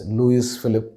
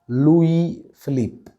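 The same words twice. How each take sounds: First: The S at the end of Louis is sounded. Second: The S at the end of Louis is silent. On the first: The speaker calls it wrong. "commonly mispronounced as" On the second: The speaker calls it right. "The S at the end of Louis is silent, and the Philippe should be stretched"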